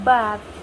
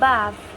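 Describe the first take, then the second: First: It is said in a British accent. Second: The same.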